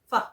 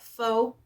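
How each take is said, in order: First: The word is said the native Vietnamese way. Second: The word is read the way its spelling looks. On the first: The speaker calls it right. "So that's how I know how to pronounce it" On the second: The speaker calls it wrong. "because that's what the word looks like"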